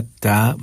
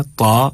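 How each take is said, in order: First: "ता" light with a fronted vowel; thin ta. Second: "ता" heavy and full, back vowel; thick ta. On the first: Teacher contrasting two letters, "ता" in a thin sound. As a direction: keep "ता" thin, tongue forward. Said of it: "बारीक आवाज़ के साथ". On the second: Teacher contrasting two letters, "ता" in a thick sound. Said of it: "मोटी आवाज़ के साथ". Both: Shown as a demonstration.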